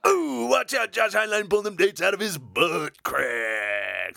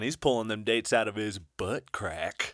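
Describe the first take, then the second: First: Slow, hammed-up radio DJ voice; shock jock radio host. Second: Shock jock radio host. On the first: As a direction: boom it out like a trashy morning-show host. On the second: Acted. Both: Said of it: "I kinda sounded like a shock jock".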